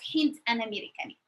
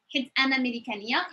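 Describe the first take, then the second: First: The word is said with the n sound. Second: The word is said without the n sound. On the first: "instead of hint" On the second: "When I speak fast, I use hit"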